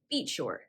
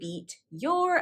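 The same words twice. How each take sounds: First: The t and y merge into a ch sound. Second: The t and y sounds stay separate. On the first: "the coalescence occurred with the phrase beat your" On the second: "I did not say beat your"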